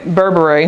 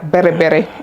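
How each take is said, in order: First: The first syllable sounds like 'bur'. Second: The first syllable sounds like 'beh'. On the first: This is how Americans say it. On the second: This is the authentic way to say it.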